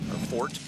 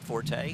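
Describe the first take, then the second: First: The name has one syllable, ending in t. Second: The name has two syllables, ending in a vowel. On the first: "The only guy who wants to call him Fort" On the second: "I got yelled at on Twitter for calling him Forte"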